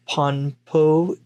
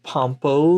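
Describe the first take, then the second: First: "Ponpo" with an n before the p. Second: "Pompo" with an m before the p. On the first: Host pointing out the title's spelling, "Ponpo" with an n sound. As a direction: say "Ponpo" slowly, n closing the first syllable. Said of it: "Ponpo instead of Pompo". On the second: Host contrasting the English title, "Pompo" with an m sound. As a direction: say "Pompo", lips closing on m before the p. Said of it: "in the English it's Pompo". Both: Shown as a demonstration.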